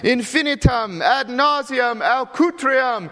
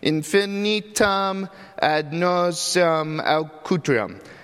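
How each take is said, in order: First: The words come out forceful and full of conviction. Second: The words come out hesitant and half-hearted. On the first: She really means it and believes it. "you gotta really mean it and believe it" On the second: She cannot really pronounce it yet. "She kind of half-heartedly says them because she can't really pronounce it"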